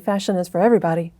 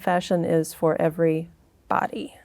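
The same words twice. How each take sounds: First: The name is said quickly. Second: The name is said slowly. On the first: Part of the name's meaning gets lost. The speaker calls it wrong. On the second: The full meaning of the name comes through. The speaker calls it right.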